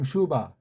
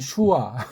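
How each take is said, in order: First: The second syllable begins with a b sound. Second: The second syllable begins with a w sound. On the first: This is the German way of saying it. "독일 발음" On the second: This is the American way of saying it. "미국 발음으로는"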